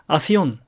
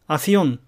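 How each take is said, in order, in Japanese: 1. 「s」の前の「k」は落ちます。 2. 「s」の前の「k」は落ちます。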